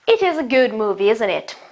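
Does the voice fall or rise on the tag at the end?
fall. The voice falls on the final tag. The speaker states an opinion and invites agreement.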